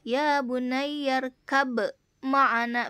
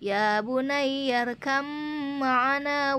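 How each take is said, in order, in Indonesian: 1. Bunyi b diucapkan sebelum m. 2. Bunyi b melebur ke dalam m setelahnya. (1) "kalau normalnya begini nih" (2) "dibacanya ba diidghamkan menjadi mim"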